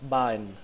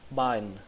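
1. Âm t ở giữa bị lướt qua. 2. Âm t ở giữa bị lướt qua.

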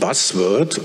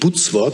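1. Das Wort wird mit englischen Lauten ausgesprochen. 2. Das Wort wird mit deutschen Lauten ausgesprochen. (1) "sondern Buzzword" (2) "Das heißt natürlich nicht Buzzword"

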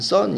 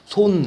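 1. 모음은 입을 크게 벌린 'uh' 소리예요. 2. 모음은 둥글게 오므린 'o' 소리예요. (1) "원래는 썬 이렇게 읽어야 돼요" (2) "이거는 손 이렇게 읽어야 되고"

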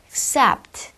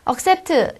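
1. 첫 번째 모음은 약해서 거의 안 들려요. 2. 첫 번째 모음은 완전히 발음돼요. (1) "accept라는 발음이 나겠죠" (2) "accept가 아니라"

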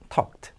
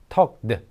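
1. 끝소리는 그냥 t 소리예요. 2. 끝소리는 그냥 t 소리가 아니에요. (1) "발음은 t 발음이 됩니다" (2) "아니고"

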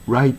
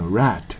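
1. 母音は、しっかり'eye'に滑る音です。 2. 母音は、平らな'ah'の音です。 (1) "Right と言わずに" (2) "Rat っていうのに近く発音、I じゃなくてA に近く発音する"

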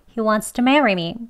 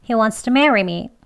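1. wants to는 s 소리가 살짝 섞이며 약간 줄어듭니다. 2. wants to는 s 소리가 살짝 섞이며 약간 줄어듭니다.

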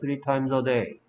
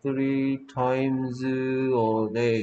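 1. 이 구절은 빠르게 한 덩어리로 말해요. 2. 이 구절은 천천히, 단어 하나씩 읽어요.

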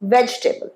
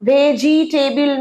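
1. শেষ অক্ষরে কোনো স্পষ্ট স্বরধ্বনি নেই: 'bl'। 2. শেষ অক্ষরে একটি স্পষ্ট 'i' স্বরধ্বনি আছে: 'bil'। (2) "ভেজিটেবিল নয়"

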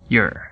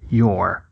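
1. A palavra é dita na forma reduzida. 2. A palavra é dita na forma plena. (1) "para your" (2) "redução da palavra your"

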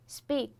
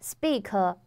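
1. 单词末尾轻轻收在 k 上，没有元音。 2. 单词末尾在 k 之后加了一个元音。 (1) "它就是k，非常轻" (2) "如果说你补上去了，就变成了speaker speaker，就变得很重"

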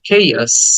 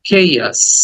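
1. প্রথম স্বরটি টানা। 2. প্রথম স্বরটি টানা।

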